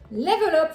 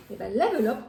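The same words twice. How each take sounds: First: Level Up announced loud, falling, like a big unveiling; product reveal. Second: Said in the usual way. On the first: Shown as a demonstration. Showing viewers the drink she received, loud reveal. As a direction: unveil the brand name proudly. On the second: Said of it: "maman cuisine, Level Up?".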